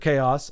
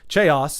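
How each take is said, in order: First: The word is pronounced in the standard way. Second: The word is deliberately pronounced in an altered way. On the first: The speaker calls it right. "I know it's pronounced chaos" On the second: The speaker calls it wrong. "I'll say chaos instead of"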